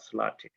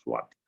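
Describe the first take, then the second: First: The word begins with a clear l after s. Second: The word begins with a w-like sound after s. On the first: The speaker calls it wrong. "not Slati" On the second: The speaker calls it right. "the correct pronunciation is Swati"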